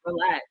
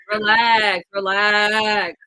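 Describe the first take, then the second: First: Said in the usual way. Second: Louder, firm repeated relax. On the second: Real, not acted. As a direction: raise the voice to make him calm down. Telling caller to calm down.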